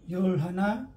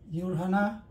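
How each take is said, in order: Both takes have the same delivery.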